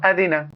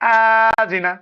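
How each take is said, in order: First: No syllable is drawn out long. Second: The first syllable is drawn out long. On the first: The speaker calls it right. "তিন জায়গাতে কোথাও টান নেই" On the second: The speaker calls it wrong. "এটাও ভুল। হামজায় টানলাম প্রথমে।"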